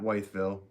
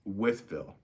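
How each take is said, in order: First: The first syllable sounds like 'white'. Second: The first syllable sounds like 'with'. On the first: The speaker calls it wrong. "Not Whiteville" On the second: The speaker calls it right. "It's Withville, right?"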